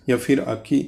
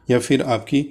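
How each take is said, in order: Both takes have the same delivery.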